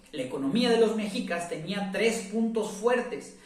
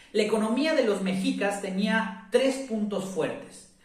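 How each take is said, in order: Both takes have the same delivery.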